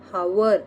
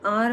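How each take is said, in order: First: The word starts with an h sound. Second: The word starts without an h sound. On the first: The speaker calls it wrong. "हावर असं म्हणत नाहीत" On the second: The speaker calls it right. "तासाला आर म्हणतात"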